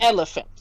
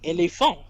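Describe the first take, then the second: First: The stress is on the first syllable. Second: The stress is on the last syllable. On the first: "we put our emphasis on the first E in that word" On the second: "you always put the stress in a in a single word on the final syllable"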